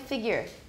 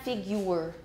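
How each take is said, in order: First: The second syllable has a reduced schwa vowel. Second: The second syllable has a 'you' sound. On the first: The speaker calls it right. "It's a schwa" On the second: The speaker calls it wrong. "It is not figure. It's not you"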